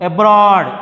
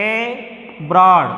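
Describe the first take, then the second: First: Said in the usual way. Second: "abroad" split slowly into two separate syllables; teacher sounding out "abroad" in two pieces. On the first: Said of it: "Then take other examples". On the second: Shown as a demonstration. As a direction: pause between the first and second parts of "abroad". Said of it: "B పైన వస్తుంది".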